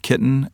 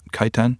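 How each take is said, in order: First: The first vowel sounds like 'ih'. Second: The first vowel sounds like 'eye'. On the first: "they were like, no, it's kitten" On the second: "I always thought it was kaiten"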